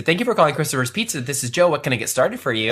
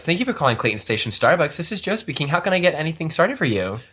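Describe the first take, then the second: First: Bright customer-service phone greeting, a bit quicker; faux phone voice. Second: Customer-service phone greeting, lightly put on; faux phone voice. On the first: Pizza worker answering calls, lightly done faux phone voice. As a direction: answer the shop phone in your work voice. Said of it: "listen to you with that faux voice". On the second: Barista answering Starbucks calls, lightly done faux phone voice. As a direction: answer the coffee shop phone politely. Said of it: "that faux voice".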